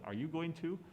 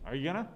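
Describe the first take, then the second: First: Every syllable of going to is pronounced. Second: Going to is shortened to gonna. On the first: It sounds overly proper. The speaker calls it wrong. "It sounds way too proper or something" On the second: It sounds natural and fluid. The speaker calls it right. "That sounds way better"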